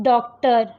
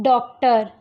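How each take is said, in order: Both takes have the same delivery.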